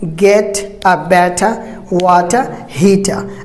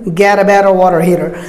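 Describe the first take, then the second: First: British accent, with clear t's and no final r. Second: American accent, with soft d-like t's and final r.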